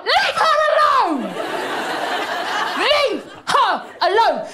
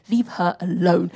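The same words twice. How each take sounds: First: High, drawn-out yell; protective outcry. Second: Low, slow, measured insistence; firm defence. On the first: Comic defending a former first lady, high drawn-out outcry. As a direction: wail it slowly, pitched way up, defending her. Defending Obama against calls to run. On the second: Comic defending a former first lady, low slow firm order. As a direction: drop low and lay it down slowly. Calmer take of same demand. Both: Acted.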